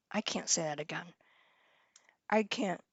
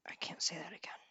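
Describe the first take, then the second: First: Mumbled under her breath, much softer; quiet mutter. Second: Whispered to herself, voiceless. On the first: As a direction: say it low to yourself, barely voiced. First take, half-voiced mutter. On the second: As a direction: breathe it out as a secret whisper. Repeats phrase as a whisper. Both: Real, not acted.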